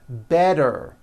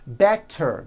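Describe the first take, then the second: First: The middle consonant is a soft D sound. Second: The middle consonant is a crisp T sound.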